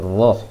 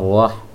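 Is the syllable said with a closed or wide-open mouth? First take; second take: closed; wide-open. First: The syllable is said without opening the mouth wide. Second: The syllable is said with a wide-open mouth. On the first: The speaker calls it right. "tapi roh" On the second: The speaker calls it wrong. "jangan rah"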